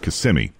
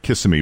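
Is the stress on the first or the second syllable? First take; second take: second; first. First: The stress is on the second syllable. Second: The stress is on the first syllable. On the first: The speaker calls it right. "but it's Kissimmee" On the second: The speaker calls it wrong. "Some people put the emphasis on the first part"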